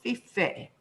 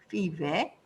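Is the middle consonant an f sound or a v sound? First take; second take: f; v. First: The middle consonant is a voiceless f sound. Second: The middle consonant is a voiced v sound. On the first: "아까 피페라고 했지만" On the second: "실제 발음은 나중에 유성음화를 겪으면서 피베가 됐을 겁니다"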